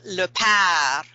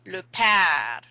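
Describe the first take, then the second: First: The vowel in père sounds like an 'ah' sound. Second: The vowel in père sounds like an 'ah' sound.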